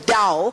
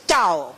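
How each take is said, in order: First: The word begins without a hard T sound. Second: The word begins with a hard T sound. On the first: The speaker calls it right. "It's pronounced as Tao" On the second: The speaker calls it wrong. "The T is not pronounced as Tao"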